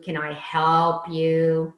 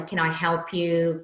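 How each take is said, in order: First: Slow, louder sarcastic drawl on help. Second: Said in the usual way. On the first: Shown as a demonstration. To a customer, a slow sarcastic offer of help. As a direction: lean on help with mock sweetness. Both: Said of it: "it's the sarcasm".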